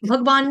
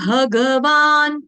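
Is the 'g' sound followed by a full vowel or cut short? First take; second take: cut short; full vowel. First: The g sound is cut short, without its vowel. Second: The g sound is followed by a full vowel. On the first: This is the everyday Hindi way. The speaker calls it wrong. "भगवान बोलने से ग आपने आधा कर दिया" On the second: This is the proper Sanskrit way. The speaker calls it right. "Sanskrit में भगवान, ग पूरा"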